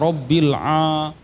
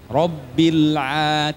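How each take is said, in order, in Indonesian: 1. Vokal setelah rabbil terdengar tebal dan penuh. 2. Vokal setelah rabbil terdengar tipis dan tersenyum. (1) "jangan dibaca Robbil a. Ini masih nampak orang Indonesia ngaji"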